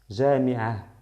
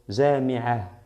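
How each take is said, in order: First: The word ends with a soft breathy 'ah'. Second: The word ends with a soft breathy 'ah'.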